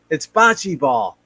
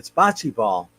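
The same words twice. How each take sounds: First: It is said more loudly. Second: It is said at normal volume.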